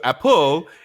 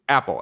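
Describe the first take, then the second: First: The stress is on the second syllable. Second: The stress is on the first syllable. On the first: The speaker calls it wrong. "So apple is not standard" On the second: The speaker calls it right. "it's apple. ... the first syllable is stressed"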